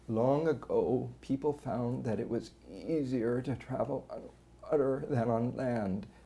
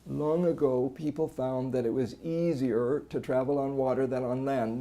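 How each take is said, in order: First: Strained voice with squeezes and brief voice stoppages. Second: Constant strain throughout, with no voice stoppages. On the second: "No phonatory arrest, but there's just this constant strain"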